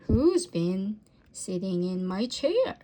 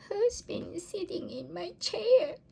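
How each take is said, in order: First: It is said in a deep, gruff voice. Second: It is said in a tiny, squeaky voice. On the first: A big father bear is speaking. "he growled in his great gruff voice" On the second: A little baby bear is speaking. "squeaked the baby bear"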